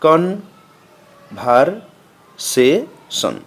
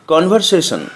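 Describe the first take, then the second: First: conversation slowly, in four parts with long pauses; broken into syllables. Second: Said in the usual way. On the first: Shown as a demonstration. Teacher showing four syllables, conversation pulled apart piece by piece. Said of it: "ভেঙে ভেঙে উচ্চারণ করতে হয়". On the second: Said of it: "একটানে উচ্চারণ".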